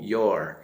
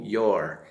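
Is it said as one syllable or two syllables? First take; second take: one syllable; one syllable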